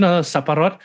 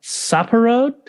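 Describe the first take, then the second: First: Saparot said firmly the Thai way, with a glottal stop after sapa and a rolled R; correcting the Thai. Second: Saparot? said wrong, rising high and unsure like a beginner; mock learner's attempt. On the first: Shown as a demonstration. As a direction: model saparot carefully for a learner. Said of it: "there's, like, a glottal stop". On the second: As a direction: mimic the actor fumbling Saparot.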